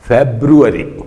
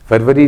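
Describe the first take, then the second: First: It begins with 'Feb' and has four syllables. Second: It begins with 'Far' and has three syllables. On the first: The speaker calls it right. "इसका हिंदी का जो उच्चारण था वो फेब्रुअरी था" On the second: The speaker calls it wrong. "फरवरी नहीं"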